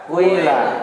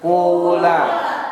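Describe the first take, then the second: First: The first vowel blends u into i. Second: The first vowel is a rounded u. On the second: "Satu dom dhammah"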